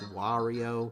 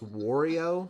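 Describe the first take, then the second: First: The first syllable has an open 'ah' vowel. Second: The first syllable sounds like the word 'war'. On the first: "the correct way, which is Wario with a with a ah sound" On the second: "I tend to pronounce his name as Wario, kind of like Oreo cookie or like make love not Wario"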